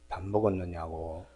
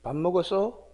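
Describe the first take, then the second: First: It is said in a warm chest voice. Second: It is said in a thin throat voice.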